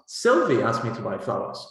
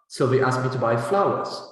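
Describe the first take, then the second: First: The main stress falls on Sylvie. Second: The main stress falls on flowers. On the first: It answers who did the asking. "you will have to stress Sylvie" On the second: It answers what was to be bought. "what did Sylvie ask you to buy?"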